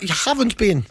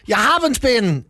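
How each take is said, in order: First: It is said at a quieter volume. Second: It is said at a louder volume.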